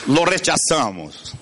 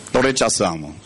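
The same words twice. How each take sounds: First: Said in the usual way. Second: "lo rechazamos" repeated lower, settling down; lower echo. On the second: Shown as a demonstration. Preacher repeating how minds reject ideas, dropping lower. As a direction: let it drop lower, like an echo.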